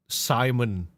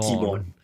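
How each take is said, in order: First: The name begins with a plain 's' sound. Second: The name begins with an 'sh' sound.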